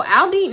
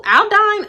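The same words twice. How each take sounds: First: "Aldine" ending like "deen"; corrected pronunciation. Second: "Aldine" ending like "dine"; trying a pronunciation. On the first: Settling on the neighborhood's name, "Aldine" said as "Al-deen". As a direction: say "Aldine" with an ee second syllable. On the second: Unsure of the neighborhood's name, "Aldine" rhyming with "dine". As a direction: say "Aldine" with a long-i second syllable. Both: Shown as a demonstration. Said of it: "No, I think it's Aldine".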